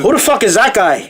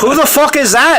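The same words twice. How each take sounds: First: Put-on milder Irish accent, less over the top; a lighter stage Irish accent. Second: Loud, high, hammed-up Irish accent. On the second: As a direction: bark it in an over-the-top Irish accent. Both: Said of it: "interview you as Conor McGregor".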